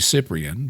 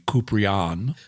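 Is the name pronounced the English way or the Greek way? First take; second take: English; Greek. First: The name is pronounced the usual English way. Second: The name is pronounced the original Greek way. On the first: "It's probably Cyprian" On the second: "If you really want to say it the Greek way"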